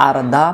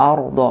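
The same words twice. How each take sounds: First: আর দা with open "aa" in both syllables, lips unrounded; thin, spread-mouthed আর দা; faulty thin vowels. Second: আর দ with rounded lips, like "awr-daw"; heavy, round-mouthed আর দ; rounded correct vowels. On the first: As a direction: demonstrate the mistaken "aar-daa". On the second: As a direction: say আর দ thick and round. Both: Shown as a demonstration. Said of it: "উচ্চারণ ভুল হয়ে যাবে".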